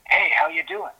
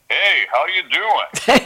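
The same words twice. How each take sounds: First: It is said in a plain, non-announcer voice. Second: It is said in a radio announcer voice.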